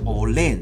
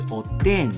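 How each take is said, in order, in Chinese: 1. 中间的辅音是 l 音。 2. 中间的辅音是 d 音。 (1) "所以它念起来像olen 哦" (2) "在日语的标准语是oden"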